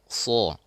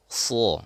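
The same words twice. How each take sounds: No difference in how they are said.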